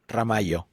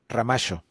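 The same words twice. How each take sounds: First: The double L sounds like a y. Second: The double L sounds like sh. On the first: "in Mexico they pon- pronounce it Ramallo" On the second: "there they pronounce it Ramallo"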